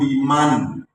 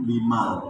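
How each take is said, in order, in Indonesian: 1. Kata ini berakhir dengan bunyi N. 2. Kata ini berakhir dengan bunyi L. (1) "Sami Allahu liman, bukan limal" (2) "bukan limal"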